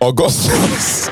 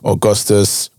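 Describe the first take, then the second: First: It is said in a Nigerian (Igbo) accent. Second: It is said in a standard accent.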